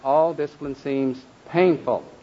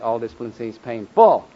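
First: The stress falls on the first syllable, pain. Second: The stress falls on the second syllable, ful. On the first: Discipline hurts. "and then the last one" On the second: Discipline is full of pain, not just a bit. "even down to the syllable"

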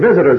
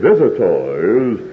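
First: It is said in an ordinary, casual voice. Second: It is said in an affected, pompous preaching voice. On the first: This is how people talk normally. "it ain't even visitors" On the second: This is how people talk once in the pulpit. "it's visitors"

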